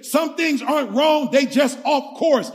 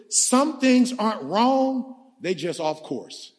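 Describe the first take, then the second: First: Pastor hammers the line to the crowd, emphatic; driven home. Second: Pastor sets up the key line for the church, slow; slow, deliberate. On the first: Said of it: "I need y'all to catch this". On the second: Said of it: "Watch this". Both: Shown as a demonstration.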